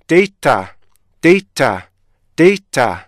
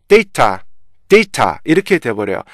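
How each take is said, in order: First: 데이터 with the 이 syllable lifted and louder; stress on second syllable. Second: 데이터 with the 데 syllable lifted; wrong stress on first. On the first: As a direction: lift the middle syllable of 데이터. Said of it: "애가 올라간 것처럼 느껴지게 돼요". (두 번째 음절을 올려 읽는 데이터) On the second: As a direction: push up the first syllable 데 by mistake. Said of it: "실제 애를 올리면 어떻게 되냐면은". (첫 음절 데를 올려 잘못 읽는 데이터) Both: Shown as a demonstration.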